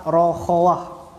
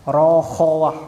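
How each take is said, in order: First: "rokhawah" drawn out slowly, every syllable open and airy; teacher slowly sounding out the term. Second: "Rokhawah" said louder and crisp, at normal speed; teacher repeating the term firmly for the class. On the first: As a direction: stretch "rokhawah" with the breath flowing freely. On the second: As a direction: state "Rokhawah" clearly and firmly. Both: Shown as a demonstration. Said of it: "Apa itu rokhawah?".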